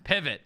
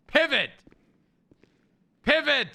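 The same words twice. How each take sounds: First: Said in the usual way. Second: High, loud barked order; shouted command. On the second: Real, not acted. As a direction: command them to turn. Repeats louder as command.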